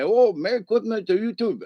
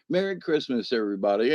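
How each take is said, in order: First: Higher-pitched imitation with altered consonants; mimicking restaurant family. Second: Said in the usual way. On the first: Restaurant family returning Christmas greeting, mimicked in high voice. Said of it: "I don't mean to mock them". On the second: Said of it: "I was like".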